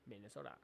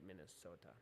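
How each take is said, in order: First: The word is said very quickly, Spanish-style. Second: The word is said at a normal pace.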